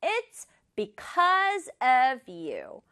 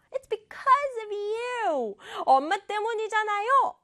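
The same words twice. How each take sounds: First: Said in the usual way. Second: High-pitched accusing outburst; acted angry yell. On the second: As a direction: hurl blame in a mock child's yell. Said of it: "이렇게 소리를 질렀어요".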